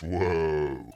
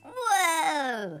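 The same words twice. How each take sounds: First: It is said in a deep voice. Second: It is said in a high-pitched voice.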